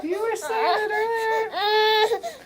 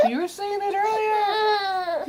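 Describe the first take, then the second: First: Very high slow, rising at end; sing-song baby talk. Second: Very high slow sing-song; sing-song baby talk. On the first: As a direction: croon it again, ending up. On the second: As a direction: croon it to the baby. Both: Pretend.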